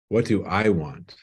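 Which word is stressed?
I. The stress falls on the word I.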